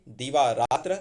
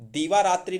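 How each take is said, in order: First: दीवा रात्र ending without I; correct form दीवा रात्र. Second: दीवा रात्रि ending in I; wrong form दीवा रात्रि. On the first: Teacher corrects दीवा रात्रि, correct form. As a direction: say दीवा रात्र, raa-tra at the end. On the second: Teacher rejects the wrong compound, mistaken form. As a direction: say दीवा रात्रि, raa-tri at the end. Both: Shown as a demonstration. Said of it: "दीवा रात्रि नहीं".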